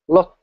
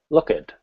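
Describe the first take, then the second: First: The word ends with a sharp T sound. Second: The word ends with an added id syllable. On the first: "The trailing consonant is very sharp" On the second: "if I use the id sound"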